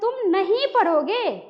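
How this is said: The word नहीं is stressed and drawn out. Said in anger, insisting firmly. "असामान्य में कहते तुम नहीं पढ़ोगे, यही होता है बलाघात"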